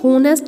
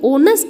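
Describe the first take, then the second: First: The word begins with an audible h sound. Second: The word begins directly with a vowel sound. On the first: The speaker calls it wrong. "लेकिन ये होनेस्ट नहीं है" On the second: The speaker calls it right. "ये ऑनेस्ट है। तो यहाँ एच क्या है, साइलेंट है"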